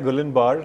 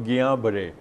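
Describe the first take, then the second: First: The 'l' sound is clearly pronounced. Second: The 'l' sound is left silent. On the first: This is how the name looks in writing. The speaker calls it wrong. "लिखा जाता है गुलन बार" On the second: This is how the name is said in French. The speaker calls it right. "French में एल एस silent, तो गियां बरे, ये इसकी सही प्रोनाउंसिएशन है"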